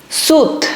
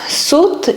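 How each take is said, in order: No difference in how they are said.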